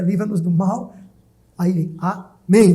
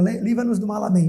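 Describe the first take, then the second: First: A clear break separates mal from amém. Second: The words run together without a break before amém. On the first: The amen is a separate closing word. The speaker calls it right. "Mas não é isso" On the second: It sounds like a pun or a joke. The speaker calls it wrong. "se emendar, dá até uma brincadeira"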